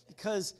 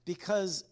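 The two takes are said the same way.

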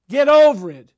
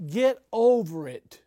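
First: High, very loud outburst; explosive preacher's scolding; shouted rebuke. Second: Slow, raised, louder rebuke; measured but forceful scolding; emphatic rebuke. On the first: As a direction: shout it as a blunt telling-off. Repeats rebuke, escalating to shout. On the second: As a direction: draw it out firmly as a telling-off. Mock rebuke to self-important preachers. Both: Acted.

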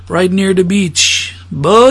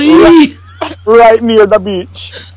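First: Drawn-out slow quote; slow movie quote. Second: Slow echo of the quote; slow repeat. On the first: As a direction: stretch each word slowly. Quoting a Jamaican film line. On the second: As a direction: drag the line out. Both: Retold or imitated.

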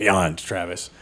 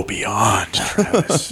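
First: "Beyond, Travis" said lower and softer, deadpan; deadpan repeat. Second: Emphatic beyond. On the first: Repeating it to Travis, low, soft and deadpan. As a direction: drop "Beyond, Travis" low and quiet, bone dry. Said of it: "Oh, beyond, Travis". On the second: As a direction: throw "beyond, Travis" out with a lift on the name. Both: Shown as a demonstration.

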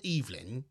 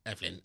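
First: Evelyn said EEV-lin; long-E pronunciation. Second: Evelyn said EV-lin; short-E pronunciation. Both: Shown as a demonstration. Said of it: "is it Evelyn or Evelyn?".

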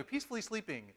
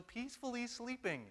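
First: Fast, matter-of-fact "peacefully sleeping"; restated quickly. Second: Peacefully sleeping. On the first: Preacher hurrying past his own joke, fast and brisk. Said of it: "But anyway". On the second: Preacher teasing that his wife was not quite asleep, high and soft. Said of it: "or trying to". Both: Shown as a demonstration.

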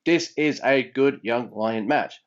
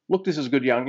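First: Slow, careful delivery; slower. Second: Said in the usual way. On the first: Shown as a demonstration. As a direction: spell out each word slowly. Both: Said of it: "I have to say that slower".

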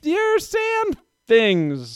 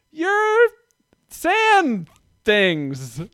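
First: Put-on very high, very slow child voice; much higher, dragged-out little girl voice; slow toddler voice. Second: Put-on high, slow child naming the sandals; much higher, drawn-out little girl voice; toddler voice. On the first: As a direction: stretch out "your sand things" like a toddler. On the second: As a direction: say it like a three-year-old who lacks the word. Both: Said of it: "she said it like that".

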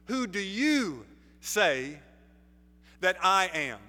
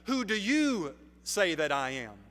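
First: "you" drawn out and leaned on, slowed right down; stress on YOU. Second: Said in the usual way. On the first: Shown as a demonstration. Preacher pressing the congregation, slow weight on "you". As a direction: hit "you" slowly and hard, as if asking each listener. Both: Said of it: "you" is emphatic".

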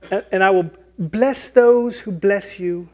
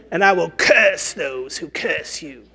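First: Higher, lightly voiced fairy; fairy blessing. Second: Slow, put-on witch voice; witch's curse. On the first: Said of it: "the blessing of, like, a fairy". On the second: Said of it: "or the cursing of the witch".

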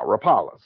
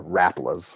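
First: Said in the usual way. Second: "Rapalas" as RAP-uh-luhz; alternative pronunciation. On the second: Shown as a demonstration. Offering listeners another way to say the lure, RAP-uh-luhz for "Rapalas". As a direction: stress the first syllable of "Rapalas", like "rap". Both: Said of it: "however you wanna pronounce it".

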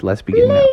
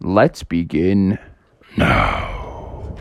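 First: Much higher with a rise on now; squeaky "Let's begin now"; high chirpy start. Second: Much lower, slow and drawn out; deep slow "Let's begin now"; low, slow start. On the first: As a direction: lift it way up and bounce the now. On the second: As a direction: drop the voice deep and drag it. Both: Shown as a demonstration.

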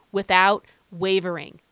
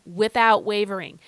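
First: Louder "without wavering" with falling end; outside voice. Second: Louder, emphatic "without wavering"; outside voice. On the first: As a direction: say "without wavering" firmly aloud. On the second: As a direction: proclaim "without wavering" out loud. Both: Shown as a demonstration. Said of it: "use my outside voice when I say those two words".

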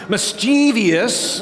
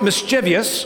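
First: Slow Midwestern Mischievous, mis-TEE-vee-us; Midwestern pronunciation. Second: Mischievous said as mis-CHEE-vee-us; the Midwest mischievous with an extra syllable; mischievous as four syllables; regional pronunciation. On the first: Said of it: "That's definitely Midwestern". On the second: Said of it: "depending on where you're from". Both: Shown as a demonstration.

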